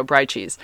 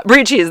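First: "brie" slipped out as "bry"; accidental mispronunciation. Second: "brie" said louder as "bree"; corrected pronunciation. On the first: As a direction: say "brie" to rhyme with fry by mistake. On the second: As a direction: correct yourself, "brie" rhyming with free. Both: Real, not acted. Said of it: "there, I just did it".

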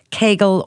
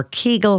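First: Kegel said as KAY-gul; variant pronunciation. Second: Kegel said as KEE-gul; alternative pronunciation. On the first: Host offering one pronunciation, Kegel as KAY-gul. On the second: Host offering another pronunciation, Kegel as KEE-gul. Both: Shown as a demonstration. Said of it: "however you pronounce it".

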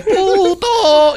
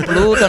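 First: Put-on very high child's "Puto" for Pluto, no L; missing L. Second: "Pluto" with its L, in a normal register; corrected with L. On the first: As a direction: imitate a little girl dropping the L in "Puto". («Puto» agudísimo, sin la L) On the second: Retold or imitated. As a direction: parent modeling "Pluto" with the L. («Pluto» con la L, corrigiendo) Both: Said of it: "te falta la L".

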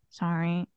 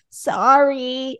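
First: Very soft, low mumbled sorry; tiny mock-sheepish voice, far softer; barely audible apology. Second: Higher, drawn-out mock sorry; stretched-out, insincere child's sorry; unrepentant apology. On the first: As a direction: imitate a child's reluctant, inaudible apology. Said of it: "I can't hear you". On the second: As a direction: imitate a kid's grudging second apology. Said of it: "that's not a repentant apology".

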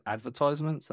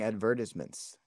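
First: Advertisements as "ad-ver-tize-ments"; advertisements, ties variant. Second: Advertisements as "ad-VER-tis-ments", short i; British-style advertisements. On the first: English host correcting co-host, "advertisements" with "tize". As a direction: say advertisements with an eye sound in "tize". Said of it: "No, we said". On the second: Surprised co-host offers the expected English way, "advertisements" as "ad-VER-tis-ments". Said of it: "I'm surprised you're not saying". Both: Shown as a demonstration.

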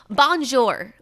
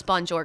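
First: "Bonjour" said louder, with a hard American R at the end; "Bonjour" as a clumsy American tourist, R pronounced; imitating a bad French accent on "Bonjour"; mock American bonjour. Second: Said in the usual way. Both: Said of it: "this is how she would pronounce bonjour".

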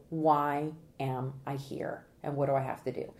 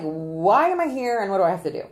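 First: Lower, even imitation of jurors; imitating jurors' question. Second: Loud, emphatic imitation of reluctant jurors; imitating jurors. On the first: Consultant explaining what jurors wanna know, low measured question. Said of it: "because they wanna know". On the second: Consultant voicing jurors who got summoned, loud complaint. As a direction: voice a put-upon juror, louder. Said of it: "They are like".

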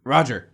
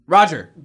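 First: Said in the usual way. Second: Calling out. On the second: Acted. Older brother calling louder.

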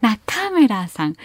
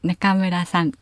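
First: Slow 中村さん with pitch lifted on か; exaggerated rising intonation. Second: 中村さん low and level, no rise on か; flat Kanto intonation. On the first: How she was called as a child, overdone rising 中村. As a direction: overdo the Kyushu rise on 中村さん. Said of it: "ちょっとオーバーに言っちゃった". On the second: How Kanto people say her name, flat and low. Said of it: "かが上がらない言い方". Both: Shown as a demonstration.

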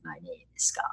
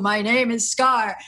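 First: Much lower, softer growl of Scar; Scar accent retry. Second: Slow, lightly put-on villain lion voice; drawn-out mock Scar voice; Scar impression. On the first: Retold or imitated. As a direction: drop deep and quiet for the villain lion. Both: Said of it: "I can't even do that accent".

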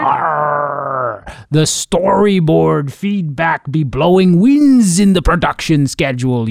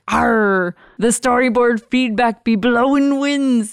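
First: Slow, loud pirate growl; hammed-up pirate captain. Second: Lightly voiced pirate, louder; a hint of a pirate captain. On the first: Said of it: "That's my pirate voice". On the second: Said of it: "just like you did".

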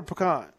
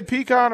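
First: "pecan" as puh-KAHN, reduced first vowel; pronunciation puh-KAHN. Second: "pecan" as PEE-kahn, long ee first; pronunciation PEE-kahn. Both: Shown as a demonstration. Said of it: "what's the proper way to say that".

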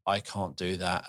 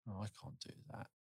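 First: Said in the usual way. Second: Whispered, fast and despairing; hushed hopeless murmur; defeated whisper. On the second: Retold or imitated. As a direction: breathe it out like giving up. Despairing painter quote.

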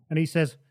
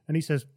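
The two takes are said the same way.

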